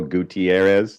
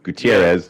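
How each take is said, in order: First: The name is said with an added extra syllable. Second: The name is said with an American pronunciation. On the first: "some people just throw in that extra syllable" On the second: "the way I say it, the American"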